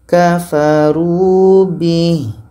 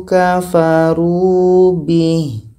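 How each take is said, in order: Both takes have the same delivery.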